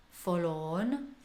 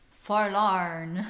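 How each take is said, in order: First: Plain modern forlorn. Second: "forlorn" louder with pirate-hard R's; exaggerated rhotic forlorn. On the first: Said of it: "And also forlorn". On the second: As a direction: lean into the R's almost like a pirate. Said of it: "I am exaggerating a little bit". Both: Shown as a demonstration.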